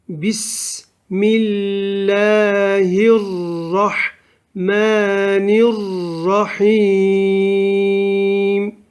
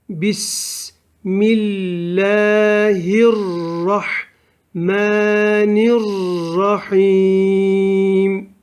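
Both takes have the same delivery.

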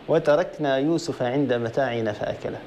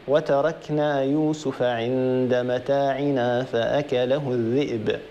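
First: The reading stops right after fa'akalahu. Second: The reading continues past fa'akalahu without stopping. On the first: Yusuf ate the belongings. The speaker calls it wrong. "معنى خاطئ تماما" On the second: The wolf ate Yusuf. The speaker calls it right. "لابد أن تكمل"

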